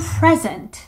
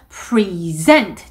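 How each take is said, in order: First: The stress is on the first syllable. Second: The stress is on the second syllable. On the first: It is used as a noun. "명사로 나왔을 때에는 present" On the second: It is used as a verb meaning to show or present. "pre 아니고 present 뒤쪽에 또 강세가 가죠"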